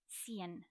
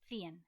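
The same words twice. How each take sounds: First: The first sound is a hissing 's'. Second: The first sound is a lisped 'th'. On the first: "In Latin America" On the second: "In Spain"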